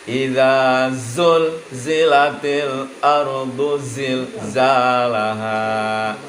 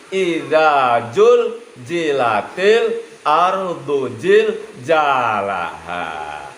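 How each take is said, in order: First: The key consonants are pronounced as a z sound. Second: The key consonants are pronounced as a j sound. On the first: The verse speaks of the earth being shaken. The speaker calls it right. "Jelas ya?" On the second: The meaning of shaking is lost. The speaker calls it wrong. "Jadi tidak dibaca"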